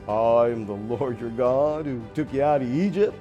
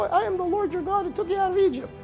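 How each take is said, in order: First: It is said like a used car salesman. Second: It is said in a Mickey Mouse voice.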